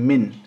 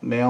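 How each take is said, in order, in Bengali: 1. শব্দটি একটি স্পষ্ট n ধ্বনি দিয়ে শেষ হয়। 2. n ধ্বনিটি একটি নাসিক্য স্বরের ভেতরে লুকিয়ে আছে। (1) "এখন আমি কিন্তু আপনাদেরকে বলতেছি মিন" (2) "তখন বলবো মেয় মেয়"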